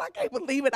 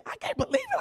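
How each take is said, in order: First: Said in the usual way. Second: Mock squeal of disbelief, pitch leaping up; a hammed-up squeak of disbelief. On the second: Repeated mock complaint.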